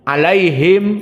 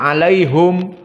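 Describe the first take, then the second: First: The last syllable is said as 'him'. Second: The last syllable is said as 'hum'. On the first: This is the usual reading. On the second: This is another recognized reading.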